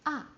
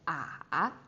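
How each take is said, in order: First: The pitch falls sharply from high to low. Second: The pitch dips down and then rises. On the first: "the fourth one, like a bungee jump" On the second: "the third one, remember the roller coaster?"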